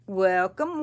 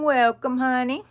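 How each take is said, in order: First: Said in the usual way. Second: Excited welcome. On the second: Real, not acted. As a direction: welcome louder and higher, gushing.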